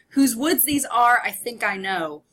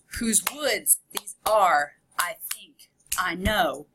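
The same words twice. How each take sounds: First: It is read quickly with a light, natural rhythm. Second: Every second syllable is stressed in a clear beat. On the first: "I read that pretty fast" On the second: "give more emphasis on the two"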